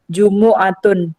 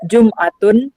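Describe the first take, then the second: First: The m is followed by a u vowel. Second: The m carries no vowel after it. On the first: The pronunciation used by the Bani Tamim tribe. "mimnya dibaca dhammah" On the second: The pronunciation used by most other tribes. "mimnya sukun"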